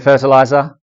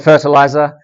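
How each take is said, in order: First: It is said in the speaker's own non-American accent. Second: It is said in an American accent. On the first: "I say fertilizer" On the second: "you guys say fertilizer"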